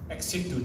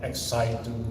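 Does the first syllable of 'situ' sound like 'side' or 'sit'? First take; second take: sit; side. First: The first vowel of situ is short, as in sit. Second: The first vowel of situ is long, as in side. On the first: The speaker calls it right. "It should be pronounced ex situ" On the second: The speaker calls it wrong. "the slang of the American or the Australian"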